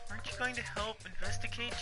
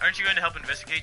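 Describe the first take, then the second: First: It is read in a put-on character voice. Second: It is read in his normal voice. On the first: Someone else is speaking the line. The speaker calls it wrong. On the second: The narrator himself is speaking the line. The speaker calls it right.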